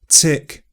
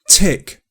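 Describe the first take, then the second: First: The t is released with a little s sound. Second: The t is released with a puff of air. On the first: "But affrication, that little s we saw earlier, is probably more common" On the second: "T can also have this aspiration before stressed vowel sounds"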